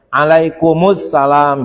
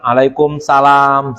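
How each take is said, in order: First: The vowel before salam is clearly pronounced. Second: The vowel before salam is dropped entirely. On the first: The speaker calls it right. "Tapi harus benar nih annya" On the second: The speaker calls it wrong. "jangan alaikumsalam. Salah lagi tuh kalau begitu"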